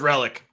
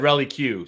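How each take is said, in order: First: The name is said in two syllables, like 'relic'. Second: The name is said in three syllables, ending 'Q'. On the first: This is the correct way it is pronounced. The speaker calls it right. "Apparently, it is Relic" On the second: This is the way they have always said it. The speaker calls it wrong. "we've always said Rally Q"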